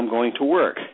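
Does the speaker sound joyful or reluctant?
joyful. It is said in a cheerful, upbeat way. Going to work is something one gets to do. The speaker calls it right. "you can say that with joy"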